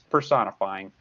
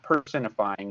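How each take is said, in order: First: The first syllable is not emphasized. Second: The first syllable is strongly emphasized. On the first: The speaker calls it right. "the correct way to pronounce it" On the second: The speaker calls it wrong. "not personifying ... I'm emphasizing that because I want to emphasize the word person"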